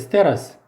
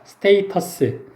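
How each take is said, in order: First: It has a short vowel and a flapped T. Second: It has a long 'ay' vowel and a clear T. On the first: "미국식으로 발음을 하면 스테러스예요" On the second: "영국식으로 발음하면 스테이터스입니다"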